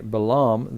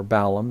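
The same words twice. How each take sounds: First: Balaam said as buh-LAHM; one pronunciation of Balaam. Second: Balaam said as BAY-lum; alternative pronunciation of Balaam. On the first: Teacher names the pagan prophet, Balaam as buh-LAHM. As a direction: say Balaam with the weight on the second syllable. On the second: Teacher offers another reading of the name, Balaam as BAY-lum. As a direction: say Balaam with the weight on the first syllable. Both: Shown as a demonstration. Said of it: "depending on how you pronounce it".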